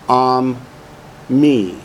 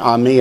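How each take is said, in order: First: The word is said slowly, split into syllables. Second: The word is said quickly as one unit. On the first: "If you broke it down into syllables" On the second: "when you say it quickly"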